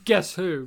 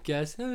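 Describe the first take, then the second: First: It ends with a falling, statement-like tune. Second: It ends with a rising, question-like tune.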